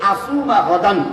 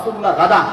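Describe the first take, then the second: First: The last word ends with an n sound. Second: The last word ends on a vowel. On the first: The speaker calls it right. "শব্দটা হচ্ছে আসুমা গাদান" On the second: The speaker calls it wrong. "আর আমরা বলি নাওয়াইতু আন আসুমা গাদা, গাদা বানিয়ে দিলাম"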